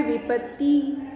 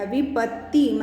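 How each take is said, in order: First: "विपत्ति" with a lightly held t; incorrect form. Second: "विपत्ति" with a long doubled t; correct pronunciation. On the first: Teacher reads what is written for students, incorrect form. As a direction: say "विपत्ति" without dwelling on the त. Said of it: "अब यहाँ पर लिखा है". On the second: Teacher explains how the word is written, correct pronunciation. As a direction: hold the त in "विपत्ति", half then full. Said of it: "त एक बार आधा और एक बार पूरा". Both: Shown as a demonstration.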